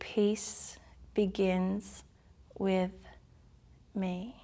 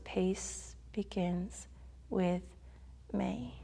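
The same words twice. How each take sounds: First: It is said at a slower pace. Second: It is said at a faster pace.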